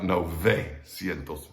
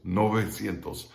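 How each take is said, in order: First: "novecientos" slowed, with an English toothy V; slow mistaken "novecientos" with a hard English V; wrong V sound. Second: "novecientos" with V as a loose B; "novecientos" with a lips-only V, no teeth; soft Spanish V. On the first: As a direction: say "novecientos" with teeth on lip for the V. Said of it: "not novecientos". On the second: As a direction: say "novecientos" with lips not quite closed on the V. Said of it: "B without closing your lips". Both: Shown as a demonstration.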